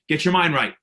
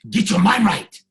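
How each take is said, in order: First: It is said flatly, without feeling. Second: It is said with strong, heartfelt feeling. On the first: The speaker does not really mean it. The speaker calls it wrong. "I don't feel you when you say it like that" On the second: The speaker truly means it. The speaker calls it right. "I want to feel from your soul"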